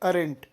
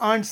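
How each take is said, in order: First: The word is said with two syllables. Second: The word is said as one syllable.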